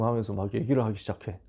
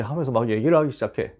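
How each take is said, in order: First: A hushed, toneless whisper, 얘기를 falling away; a quick whispered aside. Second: Said in the usual way. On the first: Retold or imitated. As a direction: breathe 하면서 막 얘기를 하기 시작해 as a whisper. Aside while retelling tongues.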